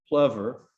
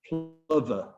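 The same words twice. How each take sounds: First: The word is said the American way. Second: The word is said the British way. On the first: "the American pronunciation is plover" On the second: "The British pronunciation is plover"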